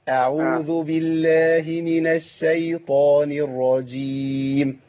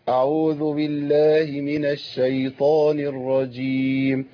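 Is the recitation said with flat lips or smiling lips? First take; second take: smiling; flat. First: It is recited with lips spread in a smile. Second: It is recited without moving the lips. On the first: The speaker calls it right. "القران بيعلمنا الابتسامة ازاي" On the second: The speaker calls it wrong. "لو انا ما حركتش الشفتين هتبقى كده"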